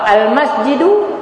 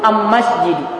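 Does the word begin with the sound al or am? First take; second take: al; am. First: The article is pronounced with an l sound. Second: The article is pronounced with an m sound. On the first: This is the standard Arabic form. "alif lam" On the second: This is the Himyar dialect form. "diganti dengan alif mim"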